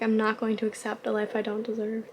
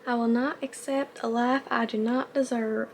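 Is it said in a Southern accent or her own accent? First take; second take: own accent; Southern. First: It is said in her own accent. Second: It is said in a fake Southern accent.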